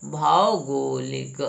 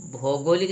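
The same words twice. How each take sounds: First: भौगोलिक opened with "bhau", very slow; drawn-out "au" in भौगोलिक; corrected pronunciation. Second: भौगोलिक opened with "bho"; mispronounced भौगोलिक. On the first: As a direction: say भौगोलिक as "BHAA-o-go-lik", lower. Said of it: "औ की मात्रा होनी चाहिए". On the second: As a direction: say भौगोलिक as "BHOH-go-lik". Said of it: "भौगोलिक नहीं". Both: Shown as a demonstration.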